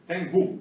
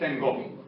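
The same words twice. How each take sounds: First: The unstressed final vowel is closed. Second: The unstressed final vowel is open. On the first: This is how northern Balkan speakers say it. "the same sentence in the north of the Balkans would be" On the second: This is how Istanbul speakers say it. "not tengo"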